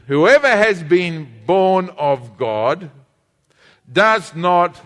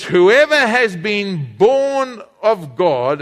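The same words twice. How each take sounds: First: Slow, drawn-out reading aloud with the congregation; slow group reading. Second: Slow, deliberate Bible reading; slow scripture reading. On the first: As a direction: lead everyone reading it slowly together. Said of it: "everybody read this with me". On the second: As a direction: read it out slowly to the church. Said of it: "Then he says". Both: Shown as a demonstration.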